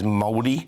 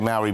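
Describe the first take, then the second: First: The word has a Māori-style pronunciation. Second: The word has a familiar anglicized English pronunciation. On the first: This is how the people themselves say it. The speaker calls it right. "the correct pronunciation, I'm told, is Māori" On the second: This is how English speakers usually say it. The speaker calls it wrong. "We say Maori"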